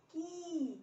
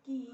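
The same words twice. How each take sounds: First: की higher, the ee drawn out; long i vowel. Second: की with a brief i; short i vowel. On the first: Teacher drilling the k series, long vowel in की. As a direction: hold the vowel in की. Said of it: "बड़ी की मात्रा लगेगी". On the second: Teacher drilling the k series, short vowel in की. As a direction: say की short, without holding it. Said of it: "छोटी ई की मात्रा". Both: Shown as a demonstration.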